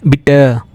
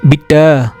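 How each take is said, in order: No difference in how they are said.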